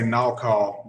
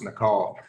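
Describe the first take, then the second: First: The name is said with a Southern pronunciation. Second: The name is said with the owner's pronunciation. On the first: The speaker calls it wrong. "I'm from Georgia, so sometimes I say Nakal" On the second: The speaker calls it right. "it is actually pronounced Nakal"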